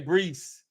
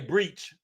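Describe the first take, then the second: First: The name ends with a z sound. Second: The name ends with a ch sound. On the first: "I don't say breeze" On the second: "I say breach. Yeah, that's my that's my southern slang"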